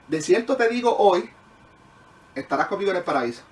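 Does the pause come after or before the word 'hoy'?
after. The pause falls just after the word 'hoy'. The promise is made today; paradise comes later. The speaker calls it right.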